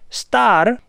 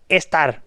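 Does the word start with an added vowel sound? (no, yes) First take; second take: no; yes. First: The word starts directly with the s sound. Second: An added e vowel comes before the s. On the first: The speaker calls it right. "te está diciendo que la palabra es star" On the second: The speaker calls it wrong. "y tú dices estar"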